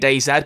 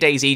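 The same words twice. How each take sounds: First: The name is said with a British pronunciation. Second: The name is said with an American pronunciation. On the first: This is how the speaker naturally says it. "Being British, I really want to say DayZ" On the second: This is said to please an American audience. "I'll say DayZ just to appease the American audience"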